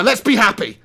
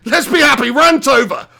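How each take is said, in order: First: Said in the usual way. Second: Higher, louder and cheery. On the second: Real, not acted. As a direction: force a bright happy tone.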